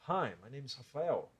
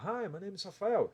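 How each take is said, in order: First: The voice is deep, rough and resonant from the chest. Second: The voice is light and placed in the mouth. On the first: "som mais sujo, com não muita qualidade e um som mais grave" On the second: "Não é uma voz aqui da boca"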